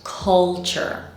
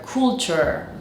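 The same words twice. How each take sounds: First: "culture" said slowly as KUL-cher; stretched model "culture", vowel as in cut; correct UH vowel. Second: "culture" said COOL-cher; first vowel of "culture" as in cool; learners' OO vowel. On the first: Shown as a demonstration. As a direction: open uh in the first syllable of "culture". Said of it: "This word is pronounced culture". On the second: Retold or imitated. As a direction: mimic the mistake, rounded OO in "culture". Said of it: "students end up pronouncing this word culture".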